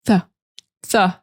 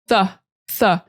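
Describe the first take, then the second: Both takes have the same delivery.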